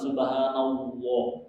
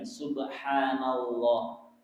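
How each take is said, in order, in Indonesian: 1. Bibir mencucu dengan warna 'w'. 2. Bibir tetap tidak mencucu pada 'la' yang tebal. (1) "bukan subhanallah. Itu keliru" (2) "Coba perhatikan subhanallah"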